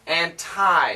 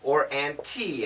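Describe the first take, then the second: First: The word ends with a 'tie' sound. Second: The word ends with a 'tea' sound. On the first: "as in your tie, the necktie" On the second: "as in a cup of tea"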